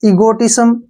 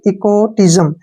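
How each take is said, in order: First: The sound before the final m is an s. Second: The sound before the final m is a z. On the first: The speaker calls it wrong. "आप इसको जो है पढ़ेंगे ईगोटिज्म, जो कि गलत है" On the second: The speaker calls it right. "I एस का उच्चारण ... जय के रूप में"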